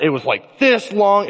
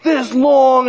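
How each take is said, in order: First: Said in the usual way. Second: High, louder burst of excitement; like a thrilled kid with a fish story; excited boast. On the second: Retold or imitated. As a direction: brag about the catch with rising excitement. Excitedly repeats the fish's size.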